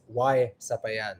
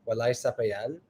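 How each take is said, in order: First: It is said Cebuano-style, without the L sound. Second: It is said Bisaya-style, with an L sound.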